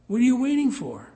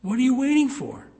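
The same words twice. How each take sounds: First: "you" hit hard, much higher and louder, falling; loud ad slogan. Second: "waiting" hit hard, much higher and louder, falling; loud ad slogan. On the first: Preacher imitating the clinic ad, stress on "you". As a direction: lean on "you" like a pushy radio ad. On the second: Preacher imitating the clinic ad, stress on "waiting". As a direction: punch "waiting" like a pushy radio ad. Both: Retold or imitated.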